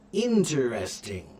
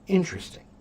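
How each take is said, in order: First: The word is said at a slower pace. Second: The word is said at a fast pace.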